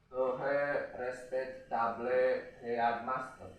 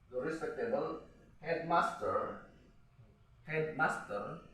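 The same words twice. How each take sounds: First: Slow, stiff "To have respectable headmaster", each word spelled out flat; slow, halting misreading; wrong way, word by word. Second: Slow "The respectable headmaster" with "rispektebel hedmaster"; teacher modelling the right reading; correct English pronunciation. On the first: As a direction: read "respectable headmaster" syllable by syllable like a schoolkid. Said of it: "Inggris nggak boleh nih". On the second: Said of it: "dibacanya ya". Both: Shown as a demonstration.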